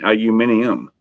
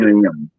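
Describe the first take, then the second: First: It is said with five syllables, ending -nium. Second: It is said with four syllables, ending -num. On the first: The speaker calls it right. "aluminium does sound like it's actually spelled" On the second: The speaker calls it wrong. "you're missing the I U M part"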